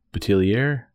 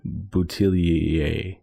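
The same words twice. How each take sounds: First: "Boutillier" higher and questioning, ending in -ee-air; anglicized pronunciation attempt. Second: "Boutillier" drawn out slowly, ending in -ee-ay; French-style pronunciation attempt. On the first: Radio host doubting the name, "Boutillier" with final -air, questioning. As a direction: offer "Boutillier" with an English r, unsure. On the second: Radio host apologetically trying the name, "Boutillier" slow with final -ay. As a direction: stretch "Boutillier" carefully toward a French -ay. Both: Real, not acted. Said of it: "I really should learn how to pronounce it".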